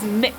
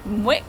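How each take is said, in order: First: It is said with a short i vowel. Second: It is said with a w sound: mwick. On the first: This is how local people say it. The speaker calls it right. "the locals have told me it's pronounced as Mick, like the man's name" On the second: A first guess from the spelling. The speaker calls it wrong. "the first time I ever saw it I thought it was pronounced as Mwick"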